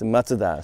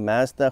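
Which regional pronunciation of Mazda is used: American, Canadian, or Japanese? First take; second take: Japanese; Canadian. First: It is said with a Japanese pronunciation. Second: It is said with a Canadian pronunciation. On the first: "Japan it's Mazda" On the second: "which is a Canadian way"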